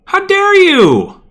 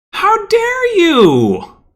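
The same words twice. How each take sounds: First: High, slow, loud outraged shout; mock outrage. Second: Even slower, high outraged shout; mock outrage. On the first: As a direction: shriek it in theatrical outrage. Outraged outburst at game. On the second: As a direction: drag out the outraged shriek. Repeated outraged outburst.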